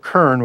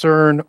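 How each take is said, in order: First: The word begins with a K sound. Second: The word begins with an S sound.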